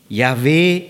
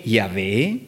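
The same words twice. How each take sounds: First: Yahweh called out loud and strong; shouted. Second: Said in the usual way. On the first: A narrator's reading. God crying out his name before Moses, a loud call. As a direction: cry the name out, Yahweh, like a proclamation. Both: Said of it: "e gridò".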